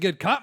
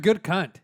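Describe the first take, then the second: First: It is said in an Australian accent. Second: It is said in a plain, unaccented voice. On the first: It sounds like a compliment. The speaker calls it right. "You need the Australian accent to make it a compliment" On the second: It sounds blunt, like an insult. The speaker calls it wrong.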